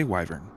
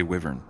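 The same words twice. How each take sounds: First: "wyvern" said WY-vern, rhyming with "driver" at the start; long-i wyvern. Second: "wyvern" said WIV-ern, short i as in "give". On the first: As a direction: say "wyvern" with i as in "eye". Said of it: "I say wyvern". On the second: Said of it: "so you say wyvern?". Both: Shown as a demonstration.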